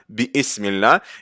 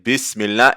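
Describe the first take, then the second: First: A glottal stop is heard before ism. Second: The words run together with no glottal stop. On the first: The speaker calls it wrong. "et pas Bismillah" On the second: The speaker calls it right. "ça va être Bismillah"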